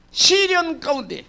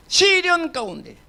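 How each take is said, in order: Both takes have the same delivery.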